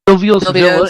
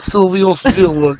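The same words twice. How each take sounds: First: It is said in the speaker's ordinary accent. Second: It is said in a put-on New York accent.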